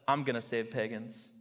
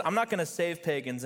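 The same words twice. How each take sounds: First: A touch lower, firm and settled reply; lightly voiced steady God, stressing "I'm"; calm God answering. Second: A touch higher, stubborn refusal with NOT stressed; lightly voiced defiant Jonah, leaning on "not". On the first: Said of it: "and God says". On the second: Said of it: "Jonah says".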